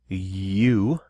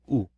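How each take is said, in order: First: The letter sounds like the English word 'you'. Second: The letter sounds like a plain 'oo' vowel. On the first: The speaker calls it wrong. "We don't say you" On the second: The speaker calls it right. "You say U, U, just by itself"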